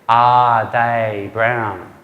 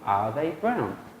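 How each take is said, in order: First: Every word gets equal, separate stress. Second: Only 'are' and 'brown' are stressed. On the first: The speaker calls it wrong. "We all know that's not natural" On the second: The speaker calls it right. "That's two stresses, right? Are and brown"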